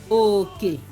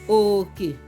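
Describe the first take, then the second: No difference in how they are said.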